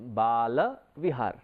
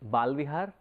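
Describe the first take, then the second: First: The first part has two syllables, ba-la. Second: The first part is a single syllable, bal. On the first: It names a place for children. The speaker calls it right. "it has to be pronounced right... then it becomes Bala Vihar" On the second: It suggests a place for hair. The speaker calls it wrong. "Sometimes we tend to mispronounce it and we say it is Balvihar"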